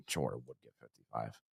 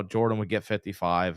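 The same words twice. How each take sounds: First: Much quieter, "Jordan would get fifty-five" laughed through low and soft; laughing repeat. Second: Said in the usual way. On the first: Shown as a demonstration. Host repeats the fans' claim laughing at it.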